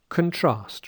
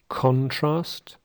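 First: The stress is on the second syllable. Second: The stress is on the first syllable. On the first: "a stress in the second syllable" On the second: "a stress in the first syllable"

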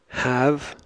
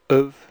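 First: The word has a full, clear vowel. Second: The word has a short, reduced vowel. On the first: "I'll read the strong and the weak form" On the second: "The weak form before consonants"

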